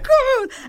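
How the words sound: It sounds excited and buzzing.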